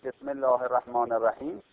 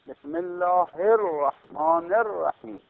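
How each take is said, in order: First: The doubled consonants are said short, not held. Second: The doubled consonants are held long, clearly doubled. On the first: The speaker calls it wrong. "اون دو تا تشدید نمیگید، دو حرف نمیگید" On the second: The speaker calls it right. "همونطور که تشدید نوشتنش لازمه گفتنش هم لازمه"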